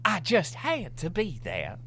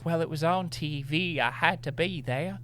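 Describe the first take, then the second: First: Higher, slower mock English lady accent; hammed-up English accent, pitched high. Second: High, prissy mock belle voice; mock Southern belle, pitched up. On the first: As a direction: draw it out like a prim English lady. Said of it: "You were doing an English accent". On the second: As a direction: play a fussy belle, pitched up. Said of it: "She's a Southern belle now".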